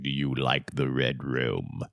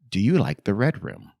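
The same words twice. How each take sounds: First: It is said in a scary voice. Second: It is said in a plain voice.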